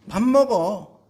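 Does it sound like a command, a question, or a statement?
statement. The tune settles down calmly at the end. The speaker is eating right now. "밥을 먹고 있는 상황을 설명하는 걸 수도 있죠"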